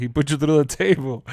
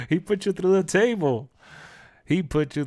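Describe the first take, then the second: First: Said in the usual way. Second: Laughing through the line, higher; real laughter while repeating. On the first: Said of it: "I'll never forget that". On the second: Real, not acted.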